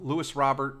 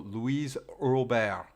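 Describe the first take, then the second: First: The name is pronounced the English way. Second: The name is pronounced the French way. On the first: This is how the player wants to be called. The speaker calls it right. "He wants it English" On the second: The speaker calls it wrong. "I turn it into French. So Louise Robert, but that's not how you pronounce it"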